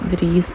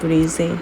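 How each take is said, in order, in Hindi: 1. नाम के अंत में कोई स्वर-ध्वनि नहीं आती। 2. नाम के अंत में एक अतिरिक्त स्वर आता है। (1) "काफ़ी सारे लोगों को नोट किया कि वो ब्रीज कह रहे होते थे" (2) "इसका प्रोनाउंसिएशन ब्रीजे ही है"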